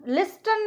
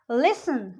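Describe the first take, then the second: First: लिस्टन said with the T sounded; लिस्टन as lis-tan; mispronunciation demo. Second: लिसन said as lis-an, T silent; लिसन with a lone s in the middle; correct pronunciation demo. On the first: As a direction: wrongly voice the T in लिस्टन. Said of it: "नहीं बोलेंगे उसको हम". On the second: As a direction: say लिसन without any T. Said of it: "लिस्टन नहीं बोलेंगे". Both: Shown as a demonstration.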